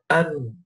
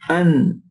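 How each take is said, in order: First: The nasal hum sounds blocked and pinched. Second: The nasal hum flows freely through the nose. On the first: "If I close my nose, you're going to hear the difference" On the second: "It's a vibration or humming sound that occurs in the nasal passage"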